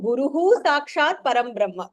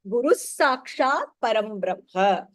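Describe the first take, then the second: First: The visarga is sounded separately after Guru. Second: The visarga is joined into the next word. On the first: "That is also correct" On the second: "to fall in that specific chandas, we say the Visarga together there"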